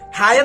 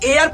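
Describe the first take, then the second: First: The word begins with an h sound. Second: The word begins with a vowel sound. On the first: The speaker calls it wrong. "इसको हायर नहीं पढ़ते हैं" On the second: The speaker calls it right. "इसको एयर पढ़ते हैं"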